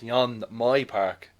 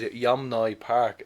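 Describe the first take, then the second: First: The N sound comes before the M sound. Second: The M sound comes before the N sound. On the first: The speaker calls it right. "It's Yon My Park. The M and the N's" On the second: The speaker calls it wrong. "I've actually been pronouncing that fourth name wrong"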